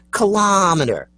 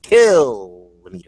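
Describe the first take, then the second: First: Pleading for "Kilometer" with LOM stressed. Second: Loud, high, slow KILL in "Kilometer"; "Kilometer" stretched as KIIILL-o-meter; kilometer stressed on KILL. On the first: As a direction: lean on the AH of "Kilometer". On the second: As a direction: exaggerate the first syllable of "Kilometer". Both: Shown as a demonstration. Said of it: "That's not the way you say it".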